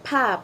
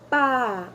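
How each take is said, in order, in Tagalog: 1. Ang p ay binibitawan na may kasamang hangin. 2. Ang p ay binibitawan na walang kasamang hangin. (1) "May H sa dulo" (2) "wala siyang H"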